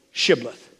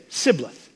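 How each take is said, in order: First: Shibboleth with a clear "sh" at the start; correct Shibboleth. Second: Sibboleth with an "s" replacing the "sh"; mispronounced Sibboleth. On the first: Preacher showing what Ephraimites couldn't say, Shibboleth with "sh". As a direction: begin Shibboleth on "sh". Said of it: "They couldn't say". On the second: Preacher showing the Ephraimites' accent, Sibboleth with "s" for "sh". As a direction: begin Sibboleth on a plain "s". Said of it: "They said Sibboleth". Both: Shown as a demonstration.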